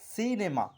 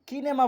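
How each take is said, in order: First: The word begins with an S sound. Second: The word begins with a K sound. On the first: The speaker calls it right. "আমরা শব্দটিকে বলছি সিনেমা" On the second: The speaker calls it wrong. "এখানে আমরা বলছি না কিনেমা"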